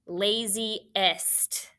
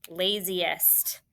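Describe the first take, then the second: First: "laziest" said slowly as two parts, lazy, then est; broken into parts. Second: Said in the usual way. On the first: Shown as a demonstration. Teacher dictates the word to spell, "laziest" split before est.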